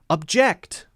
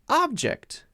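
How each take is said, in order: First: The stress is on the second syllable. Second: The stress is on the first syllable. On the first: It is the verb. "If it's a verb, it's usually going to stress the second syllable" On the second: It is the noun. "we'll stress the other syllable, the first syllable"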